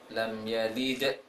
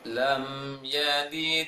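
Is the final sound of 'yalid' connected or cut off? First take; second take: cut off; connected. First: The final dal is cut off abruptly. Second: The final dal flows on without a break. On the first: The speaker calls it wrong. "tidak dibaca uh, seperti" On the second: The speaker calls it right. "Bacanya lam yalid wa lam yulad"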